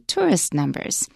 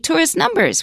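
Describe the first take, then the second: First: The stress falls on the first word. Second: The stress falls on the second word. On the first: The speaker calls it right. "Tourist numbers is a compound, ... we say tourist numbers" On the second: The speaker calls it wrong. "we don't say tourist numbers"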